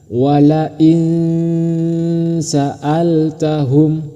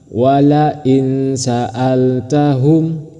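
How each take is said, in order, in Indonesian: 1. Huruf n dibaca samar dengan dengung. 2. Huruf n dibaca jelas tanpa dengung. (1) "yang benar" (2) "itu salah"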